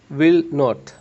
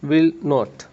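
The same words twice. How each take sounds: The two takes are said the same way.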